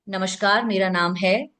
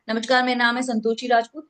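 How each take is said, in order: First: Unhurried "मेरा नाम है", held open before the name; pause before name. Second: Fast, run-together "नमस्कार, मेरा नाम है Santoshi Rajput"; rushed introduction. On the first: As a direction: say "नमस्कार, मेरा नाम है" evenly, then pause. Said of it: "pause". ("मेरा नाम है" ठहरकर, फिर विराम) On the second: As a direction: rattle through "Santoshi Rajput" without any pause. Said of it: "कोई नहीं सुनेगा". ("संतोषी राजपूत" जल्दी में, बिना रुके) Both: Shown as a demonstration.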